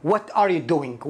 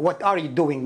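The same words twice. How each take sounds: First: "What are you doing" said slowly word by word; careful teaching pace on "What are you doing"; slow demo. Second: Said in the usual way. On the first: Shown as a demonstration. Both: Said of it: "مشهور جدًا السؤال".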